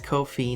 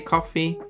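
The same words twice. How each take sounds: First: It rhymes with the phrase no fee. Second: It sounds like the drink coffee. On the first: "it rhymes, basically it's no fee" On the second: "some say coffee"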